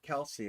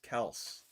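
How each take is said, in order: First: The name ends with an ee vowel sound. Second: The name ends on an s consonant sound. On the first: The speaker calls it wrong. "It's not Kelsey" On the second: The speaker calls it right. "It's Kels"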